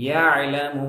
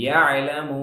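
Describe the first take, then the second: Both takes have the same delivery.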